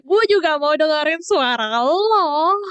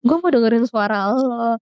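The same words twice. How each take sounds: First: Slow, higher, dreamy inner voice; inner voice, drawn out. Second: Said in the usual way. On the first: Retold or imitated. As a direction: stretch it out slowly like a secret wish. (suara hati yang pelan dan melayang) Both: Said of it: "Dalam hati gue".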